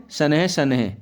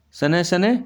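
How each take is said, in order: First: शनैः as "sa-ne-he", falling; visarga sounded. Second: शनैः as "sa-ne", no h, rising; visarga left out. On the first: Teacher showing correction, शनैः with sounded h. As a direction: add a clear h to the end of शनैः. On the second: Teacher reading the error, शनैः without h. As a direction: end शनैः on a bare vowel. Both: Shown as a demonstration. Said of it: "विसर्ग संबंधी अशुद्धियाँ".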